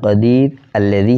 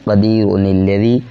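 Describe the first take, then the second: First: The words are separated, with no linking nun. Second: The words are joined with a linking nun. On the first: "वक़फ़ में" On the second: "जब मिलाकर पढ़ा तो एक हरकत तनवीन की गिर गई"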